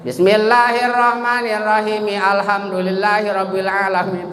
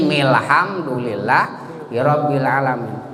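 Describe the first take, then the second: First: Chanted, "Alhamdulillahirabbil" keeps its first "a" after mi; wrong joining. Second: "milhamdulillahirabbil" starts mil, alif dropped; correct joining. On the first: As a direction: sound the alif at the start of "Alhamdulillahirabbil". (bacaan salah, "Alhamdulillahirabbil" dengan alif berbunyi) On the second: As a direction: run mim straight into lam in "milhamdulillahirabbil". ("milhamdulillahirabbil" disambung tanpa bunyi alif) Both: Shown as a demonstration. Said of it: "Salah itu bacanya".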